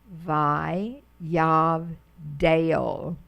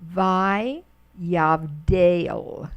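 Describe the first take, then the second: First: Vi yavdel said again even slower, ending on a rise; slow Hebrew demo. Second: Vi yavdel spelled out slowly, syllable by syllable; slow Hebrew demo. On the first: Teacher to Hebrew class, repeating the word very slowly. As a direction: stretch out Vi yavdel slowly once more. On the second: Teacher to Hebrew class, reading the word slowly. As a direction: sound out Vi yavdel slowly for learners. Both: Shown as a demonstration. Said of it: "look at the next line".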